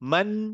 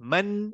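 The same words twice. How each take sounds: No difference in how they are said.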